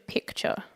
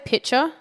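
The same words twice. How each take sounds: First: The middle has a clear k before ch. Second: The middle has a plain ch sound, no k. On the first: The speaker calls it right. "but it should be picture with a C" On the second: The speaker calls it wrong. "so I say picture, which I'm pretty sure every Australian does"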